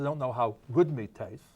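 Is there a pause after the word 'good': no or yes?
no. It flows without a pause after good. They have only eaten bad meat. "are these people who have only eaten bad meat"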